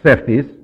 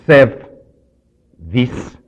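First: The word is said fast and run together. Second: The word is said slowly and carefully.

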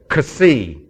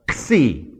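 First: A vowel separates the k and s sounds. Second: The k and s sounds run together. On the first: The speaker calls it wrong. "Here's what they say. Kasi. No, it's not Kasi" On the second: The speaker calls it right. "give the sound as if you were going to use an X, like an X-ray"

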